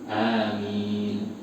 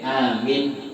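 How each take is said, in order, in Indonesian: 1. Kedua vokal panjang, dengan satu m. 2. Vokal setelah m pendek. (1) "yang betul dua-duanya panjang" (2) "Kalau mimnya pendek"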